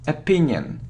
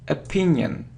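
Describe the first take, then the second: First: The first vowel is a weak 'uh' sound. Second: The same.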